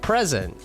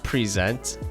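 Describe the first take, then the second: First: The stress is on the first syllable. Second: The stress is on the second syllable. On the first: It means a gift or the current time. The speaker calls it right. "Like the first one" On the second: It means to show or present something. The speaker calls it wrong. "Not present. I'm not presenting anything"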